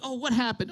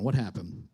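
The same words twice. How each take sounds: First: High, sarcastic fake sympathy; needling, higher-pitched question; mock angry concern. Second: Low, soft question; quiet, composed sympathy; calmed-down concern. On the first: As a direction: ask with rising irritation under mock concern. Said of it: "I just feel myself getting angry". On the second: Retold or imitated. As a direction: ask gently, voice dropping. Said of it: "So I, I calm myself down".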